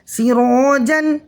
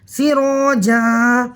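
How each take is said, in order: First: The word ends with an n sound. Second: The word ends with a long vowel. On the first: The reading continues without a stop. "जीम दो ज़बर जन" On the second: The reading stops at this word. "यहाँ पर भी दो ज़बर की तनवीन अलिफ मद्दा से बदल रही है"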